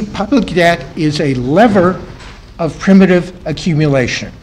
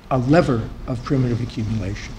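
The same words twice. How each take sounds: First: "lever" slowed and projected, ending kept strong; deliberate, fuller lecturing voice. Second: Lower, softer, trailing down; lecturer's voice drifting low and soft; voice dropping down. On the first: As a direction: speak up for the back of the room. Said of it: "Try to grow your voice". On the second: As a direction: let the phrase sink away quietly. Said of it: "go up instead of down". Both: Real, not acted.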